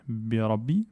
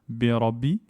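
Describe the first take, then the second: Both takes have the same delivery.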